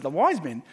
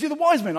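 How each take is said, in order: First: Said in the usual way. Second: Higher, louder mock Kiwi bloke; Kiwi accent. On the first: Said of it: "I said". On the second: A Kiwi pastor insists on the wise men, in a mock Kiwi voice. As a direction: echo it back like a Kiwi mate. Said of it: "He goes".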